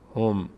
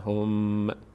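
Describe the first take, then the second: First: The final m is closed with no vowel. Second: The final m is followed by a vowel. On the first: The speaker calls it right. "اینجوری تلفظ میشه هم" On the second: The speaker calls it wrong. "بعضی عزیزان اینجوری تلفظ میکنن هم، میم باز یک حرکت پیدا میکنه"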